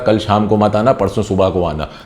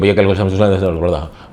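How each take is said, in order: First: It is spoken slowly with each word clear. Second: It is spoken quickly and is hard to follow. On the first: The speaker calls it right. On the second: The speaker calls it wrong.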